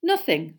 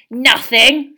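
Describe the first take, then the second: First: Said in the usual way. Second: Loud, higher disbelieving echo; contemptuous rising snarl; spat, scornful. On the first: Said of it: "said Harry truthfully". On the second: A narrator's reading. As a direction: spit the word back as a question. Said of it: "spat Filch".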